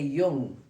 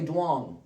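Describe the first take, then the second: First: The name begins with a Y sound. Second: The name begins with a D sound. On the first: The speaker calls it right. "We say Jung" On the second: The speaker calls it wrong. "we don't say Duong"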